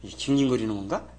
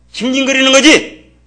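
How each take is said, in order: First: Low, subdued "이게 징징거리는 건가?" as a doubting question; retold questioning. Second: Loud, high, slow "징징거리는 거지!"; emphatic retort. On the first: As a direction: ask "이게 징징거리는 건가?" softly, lifting the end. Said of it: "징징거린다고 뭐라 했더니". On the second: Retold or imitated. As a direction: fire back "징징거리는 거지!" as a drawn-out shout. Retort to the retold question.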